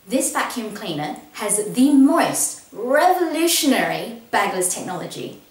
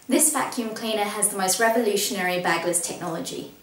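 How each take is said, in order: First: Certain words are emphasized with a lively tone. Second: It is spoken flatly, without emphasis on words. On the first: The speaker calls it right. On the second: The speaker calls it wrong.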